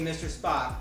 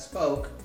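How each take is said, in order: First: The name is said in its familiar form. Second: The name is said with a changed vowel. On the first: This is how the character is known. The speaker calls it right. "instead of Mister Spock" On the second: The name has been changed from the familiar one. The speaker calls it wrong. "Spoke instead of Mister Spock"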